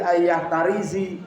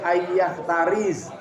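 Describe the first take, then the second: First: The last word ends with an i vowel. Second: The last word ends on a bare z sound. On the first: "gak boleh ya" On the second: "tidak boleh"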